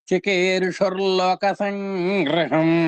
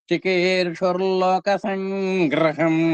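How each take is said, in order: Both takes have the same delivery.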